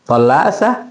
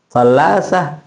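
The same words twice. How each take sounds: First: "Tallasa" rising as a question; one-word question on "Tallasa"; question intonation. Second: "Tallasa" falling at the end; one-word falling statement on "Tallasa"; statement intonation. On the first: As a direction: ask "Tallasa" with a lift at the end. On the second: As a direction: state "Tallasa", dropping the pitch at the close. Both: Shown as a demonstration. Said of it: "intonasinya pertanyaan".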